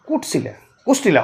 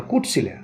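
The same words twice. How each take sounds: First: কোটশিলা then swapped to কোষ্টিলা; metathesis demo. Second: কোটশিলা said low and soft as কুটশিলা; local mispronunciation. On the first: Teacher contrasts কোটশিলা with local কোষ্টিলা. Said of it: "বলে কোষ্টিলা". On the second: Teacher shows how locals mangle কোটশিলা. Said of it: "লোকগুলো বলে". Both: Shown as a demonstration.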